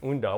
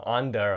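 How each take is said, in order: First: The name is said with a Japanese pronunciation. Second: The name is said with an English pronunciation. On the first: "the Japanese pronunciation is Unda" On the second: "English, maybe you call it uh, Anda"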